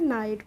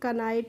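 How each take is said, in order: First: The word begins with an n sound. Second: The word begins with a k sound. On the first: The speaker calls it right. "नाइट पढ़ेंगे" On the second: The speaker calls it wrong. "कनाइट नहीं पढ़ रहे हैं"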